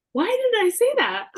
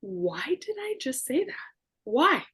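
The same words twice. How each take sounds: First: Loud, higher cry of disbelief at herself; mock-horrified self-reproach out loud; exasperated self-question. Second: Whispered, higher thought to herself; a mock-horrified private whisper; inner whisper. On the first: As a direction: blurt it out, louder and higher. Blurting, then questioning herself. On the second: But in my mind.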